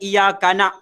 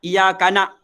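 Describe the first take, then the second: Both takes have the same delivery.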